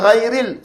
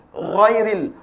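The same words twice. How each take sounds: First: Ghairil with a thin ghain and open a; wrong, thin. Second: Ghairil with a thick ghain, tongue root lifted; raised sound. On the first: Teacher shows what not to read, thin wrong demo. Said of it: "Tak mau dibaca". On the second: Teacher corrects the thin reading, raised demo. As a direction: make the first sound of Ghairil heavy and raised. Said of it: "Bunyi meninggi". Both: Shown as a demonstration.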